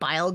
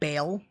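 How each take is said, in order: First: The vowel sounds like 'eye'. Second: The vowel sounds like 'ay'. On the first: This is how the name is officially said. The speaker calls it wrong. "They call it Bile Gundam" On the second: This is the speaker's preferred way to say the name. The speaker calls it right. "I will always call it Bale"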